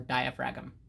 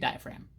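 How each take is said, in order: First: The word is said following its spelling. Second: The word is said in the usual way. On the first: "for those people who like to spell correctly" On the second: "if you want to pronounce it correctly, you say diaphragm"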